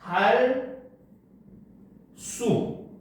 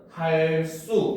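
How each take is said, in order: First: The words are separated and 수 starts plain. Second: The words are joined and 수 starts tense. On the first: "띄어서 발음을 하게 되면 할 수. 이렇게 된소리 대기가 일어나지 않습니다" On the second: "붙여서 발음을 하면은 할 수 이렇게 발음을 합니다"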